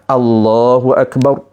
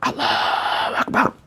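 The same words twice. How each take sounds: First: The phrase is said aloud with clearly voiced letters. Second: The phrase is said faintly, with little audible voice. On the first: The prayer is said after learning it must be voiced. The speaker calls it right. "Apabila dia belajar" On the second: The prayer is said without knowing it must be voiced. The speaker calls it wrong. "Amalan peningkatan akan ada daripada"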